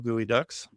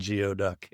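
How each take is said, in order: First: The first part sounds like 'gooey'. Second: The first part sounds like 'gee-oh'. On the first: The speaker calls it right. "that is the way you pronounce it" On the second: The speaker calls it wrong. "It's not Geoduck, yeah, even though that's how it's spelled"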